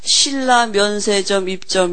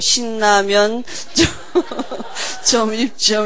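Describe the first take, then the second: First: The break falls after the syllables 'Silla'. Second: The break falls after the syllables 'Sillamyeon'. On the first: It names a Silla duty-free shop. The speaker calls it right. "공항에 뭐라고 써 있느냐면" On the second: It seems to be about Shin Ramyun noodles. The speaker calls it wrong. "제가 어떻게 읽었냐, 또 신라면 점 입점 이렇게 읽은 거예요"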